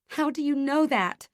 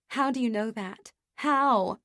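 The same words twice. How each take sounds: First: High, loud, tearful accusation; a sobbing reproach, voice breaking; accusing sob. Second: A despairing cry for reassurance; tearful wail. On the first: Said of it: "My voice is a sob, accusing". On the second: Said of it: "I wail". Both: A narrator's reading.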